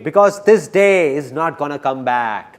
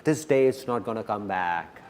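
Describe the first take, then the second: First: Slow, firm, with the weight on "this"; emphatic, slow. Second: Low, quiet repeat of "This day is not gonna come back"; quiet, lower echo; soft echo. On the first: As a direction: lean on "this". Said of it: "repeated for emphasis". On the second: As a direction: drop to a hush for the repeat. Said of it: "repeated softly". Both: Shown as a demonstration.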